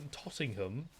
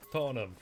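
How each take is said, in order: First: "Tottenham" with crisp T's and the H, "Tot-ting-ham"; T's put in. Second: "Tottenham" said fast as "Ott-nam", no T and no H; dropped T's. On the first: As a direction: sound every T and the H in "Tottenham". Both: Shown as a demonstration. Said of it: "We're putting the T's in".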